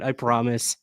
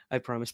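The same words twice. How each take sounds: First: Said in the usual way. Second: Soft laughing promise, much quieter. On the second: Real, not acted. Promising the chat with a soft laugh. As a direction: chuckle it out under your breath. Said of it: "laughs I promise".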